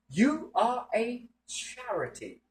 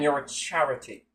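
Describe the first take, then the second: First: The phrase is said slowly and deliberately. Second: The phrase is said at normal speed.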